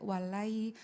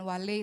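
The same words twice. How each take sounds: First: The final 'ai' sound is read softly and smoothly. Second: The final 'ai' sound is read harshly, not softly. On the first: The speaker calls it right. "tapi walai" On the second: The speaker calls it wrong. "bukan walai"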